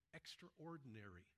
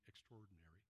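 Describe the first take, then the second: First: Every syllable of the word is said carefully. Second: The word is said sloppily with syllables reduced. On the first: The speaker calls it right. "we're going to say extraordinary because I think that grabs at the heart of the term" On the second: The speaker calls it wrong. "you don't lose it in the sloppy"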